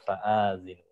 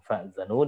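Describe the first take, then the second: First: The vowel after the hamzah is long. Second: The vowel after the hamzah is short. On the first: This is the reading transmitted by another reciter. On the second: This is the usual reading of the word.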